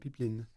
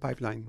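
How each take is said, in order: First: It is pronounced the way speakers in France say it. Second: It is pronounced the way Quebec speakers say it. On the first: This is the usual form in France. "Mais en France, on va dire un pipeline" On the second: This is the usual form in Quebec. "Ici, on va dire pipeline"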